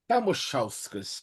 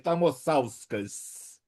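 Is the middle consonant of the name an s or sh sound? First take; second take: sh; s. First: The middle consonant is a sh sound. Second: The middle consonant is a plain s sound. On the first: The speaker calls it right. "o S do meio tem um som de X" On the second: The speaker calls it wrong. "como é que é o teu nome que eu falei?"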